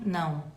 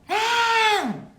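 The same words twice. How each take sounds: First: It is said calmly and firmly. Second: It is said like a child's tantrum.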